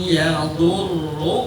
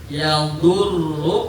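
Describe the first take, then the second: No difference in how they are said.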